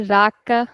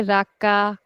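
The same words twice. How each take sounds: First: Raka with a long, leaning RAA and short ka; stress on first syllable. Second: Raka with the weight on a drawn-out final KAA; stress on last syllable. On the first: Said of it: "We don't say raka". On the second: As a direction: lean on the second syllable of "raka". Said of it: "or we don't say raka". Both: Shown as a demonstration.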